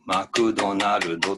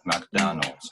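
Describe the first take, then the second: First: It is said with Japanese syllables and vowels. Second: It is said with English syllables and stress. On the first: The speaker calls it wrong. "日本人が例えばマクドナルドというのをマクドナルドと言ったら通じないんですね" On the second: The speaker calls it right. "It has to be like"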